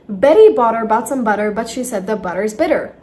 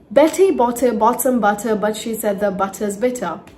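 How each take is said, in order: First: The t sounds are soft, d-like flaps. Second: The t sounds are crisp, clear t's. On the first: "Or in flap T" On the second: "In simple T"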